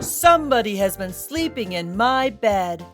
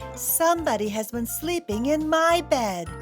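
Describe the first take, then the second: First: A big, booming, deep voice is used. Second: A medium-sized, grumbling voice is used.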